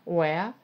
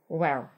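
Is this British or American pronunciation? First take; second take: British; American. First: It is said with a British accent. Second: It is said with an American accent.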